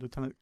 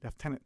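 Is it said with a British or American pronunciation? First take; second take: American; British. First: It is said with an American pronunciation. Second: It is said with a British pronunciation.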